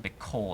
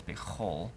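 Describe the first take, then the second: First: Bekol with a hard k sound; bekol, k like in kite. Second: Bechol with a throaty ch; bechol, soft guttural ch. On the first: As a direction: say bekol with a plain k. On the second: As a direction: say bechol with a raspy ch, no k. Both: Shown as a demonstration. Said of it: "instead of".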